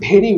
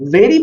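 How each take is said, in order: First: The word begins with a b sound. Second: The word begins with a v sound. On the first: The speaker calls it wrong. "ভি and বি এর উচ্চারণ এক করে ফেলতাম" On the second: The speaker calls it right. "ভেরি বলতে"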